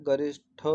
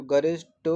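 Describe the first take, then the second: First: गरिष्ठ ending in aspirated -tho; ga-rish-THO, puff of breath on the ठ of गरिष्ठ; correct pronunciation. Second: गरिष्ठ ending in unaspirated -to; ga-rish-TO, no puff on the t of गरिष्ठ; wrong pronunciation. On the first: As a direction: model गरिष्ठ with a breathed retroflex th. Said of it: "गरिष्ठ शुद्ध है". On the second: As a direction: show गरिष्ठ wrongly with a hard plain t. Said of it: "जो गरिष्ठ है वो अशुद्ध है". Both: Shown as a demonstration.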